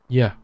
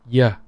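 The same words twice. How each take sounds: Both takes have the same delivery.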